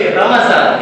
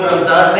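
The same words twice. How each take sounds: First: رمضان as ra-ma-zaan, three syllables; ra-ma-zaan, not ram-zaan, for رمضان; zabar on meem. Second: رمضان as ram-zaan, two syllables; ram-zaan, not ra-ma-zaan, for رمضان; common mispronunciation. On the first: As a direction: put a short a after the m in رمضان. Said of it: "میم کے اوپر زبر ہے". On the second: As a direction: run m straight into z in رمضان. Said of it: "رمضان نہیں ہے". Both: Shown as a demonstration.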